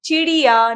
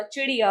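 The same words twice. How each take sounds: First: चिड़िया with a long ee, 'cheeriya'; mispronounced word. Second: चिड़िया with a short first i; correct pronunciation. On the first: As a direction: stretch the first vowel of चिड़िया loudly. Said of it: "नहीं होता". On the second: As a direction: keep the chi of चिड़िया short. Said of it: "होता है". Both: Shown as a demonstration.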